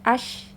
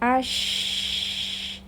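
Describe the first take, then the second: First: The sh sound is plain and narrow. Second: The sh sound spreads widely against the teeth. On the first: The speaker calls it wrong. "jangan ash, jangan seperti itu saja" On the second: The speaker calls it right. "suaranya menyebar"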